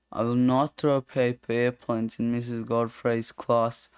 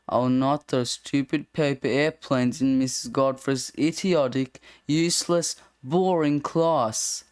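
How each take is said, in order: First: Said in the usual way. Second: Slipping in insults, slowing on boring class; sly contempt for the class, dragged out at the end; sneaky rewrite of the lines. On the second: Acted. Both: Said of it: "Straying from the format a bit".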